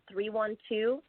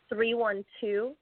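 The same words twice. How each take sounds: The two takes are said the same way.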